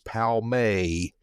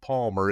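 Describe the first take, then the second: First: The name ends with an 'ay' sound. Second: The name ends with an 'er' sound. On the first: The speaker calls it right. "it's Palmay" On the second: The speaker calls it wrong. "Even the name of Palmer is not Palmer"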